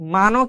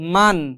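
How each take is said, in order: First: The word ends with an added vowel sound. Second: The word ends on the final consonant sound. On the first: The speaker calls it wrong. "মানো কিন্তু বলি না" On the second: The speaker calls it right. "আমরা এটাকে পড়ি কি? মান।"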